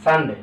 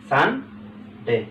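First: Said in the usual way. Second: Sunday drawn out very slowly as সান and ডে; slow syllable demo. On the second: Shown as a demonstration. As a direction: stretch Sunday so both syllables stand apart. (Sunday খুব ধীরে টেনে টেনে বলা)

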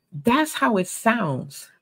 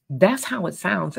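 First: "That's how it sounds." drawn out slowly, each word weighted, pitched a little up; slow emphatic repeat. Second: Said in the usual way. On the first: Shown as a demonstration. Preacher driving the point home to the congregation, slow and weighty.

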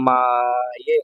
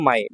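First: "মায়ে" stretched very slowly on a long, low first vowel; drawn-out pronunciation. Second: Said in the usual way. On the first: Shown as a demonstration. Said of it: "এই যে মায়ে". ("মায়ে" টেনে টেনে, ধীরে উচ্চারণ) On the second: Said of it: "আর এটা হলো মায়ে".

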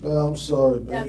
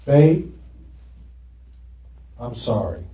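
First: Softer, whiny sorry; whining apology. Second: Quiet sorry; plain apology. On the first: Preacher acting out the whiny sorry his wife dislikes. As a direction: whine the apology like a sulky husband. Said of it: "She doesn't like that kind of whining". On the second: Preacher showing the church how he apologized to his wife. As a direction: say sorry softly and simply. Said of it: "here's how I repented". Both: Shown as a demonstration.

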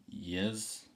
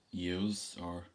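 First: "yous" said short as "yiz", /jɪz/, with a questioning rise; Dublin "yiz". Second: "yous" said with a full yoo sound, /juz/; Irish yous. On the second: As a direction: say "yous" as "yooz", long and clear. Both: Shown as a demonstration. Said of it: "What do you say to address a group".

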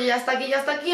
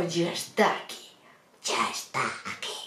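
First: Said in the usual way. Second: Sinister. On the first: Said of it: "Bueno, con el rollo". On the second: Retold or imitated. Surgeon as the scared patient heard him, sinister and low. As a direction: draw it out darkly, deep and soft. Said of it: "que sonó todo muy tenebroso".

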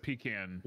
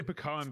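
First: "pecan" as PEE-can; PEE-can pronunciation. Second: "pecan" as puh-KAHN; puh-KAHN pronunciation. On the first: Recalling what grandpa corrected, "pecan" as PEE-can. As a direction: say "pecan" with stress on PEE, short A. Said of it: "every time I said pecan". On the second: Explaining a childhood habit, "pecan" as puh-KAHN. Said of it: "I only say pecan because". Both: Shown as a demonstration.

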